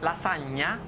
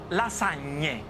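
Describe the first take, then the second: First: The word ends with an 'ah' vowel. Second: The word ends with an 'ay' vowel. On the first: A dish made with one sheet. The speaker calls it wrong. "it's not called lasagna" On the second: A dish made with two sheets. The speaker calls it right. "it's called lasagne"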